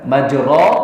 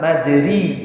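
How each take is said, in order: First: The vowel after the r is an open a. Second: The vowel after the r is a close i. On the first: "Kalau fathah kan bunyinya bagaimana?" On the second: "Kalau kasroh bagaimana?"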